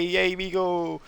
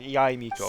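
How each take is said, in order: First: The name is said in an excited, gushing way. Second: The name is said in a plain, calm way. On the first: The speaker calls it wrong. "You don't go like, oh my god, hi, Yaimiko" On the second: The speaker calls it right. "It's more just like Yaimiko"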